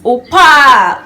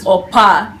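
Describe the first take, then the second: First: It is said sweetly, with a Korean lilt. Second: It is said flatly, without a sweet Korean lilt. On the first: The speaker calls it right. "when you go like this, Opa, Uni, it is very, very sweet" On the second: The speaker calls it wrong. "the way I said it, Opa, is not really sweet"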